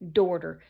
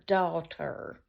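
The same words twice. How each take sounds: First: The word sounds like 'dorter' with an r. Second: The word is said without an r sound.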